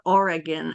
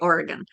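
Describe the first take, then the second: First: It uses another non-local pronunciation of the name. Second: It uses the local Oregon pronunciation of the name. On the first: "or Oregon" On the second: "I say Oregon because that's how they say it"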